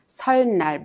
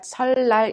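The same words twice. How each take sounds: First: The second syllable begins with an n sound. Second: The second syllable begins with an l sound. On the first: The speaker calls it wrong. "We do not pronounce" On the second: The speaker calls it right. "but 설날 instead"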